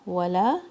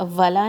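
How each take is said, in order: First: The first sound is pronounced as a rounded w. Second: The first sound is pronounced like an English v. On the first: The speaker calls it right. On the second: The speaker calls it wrong.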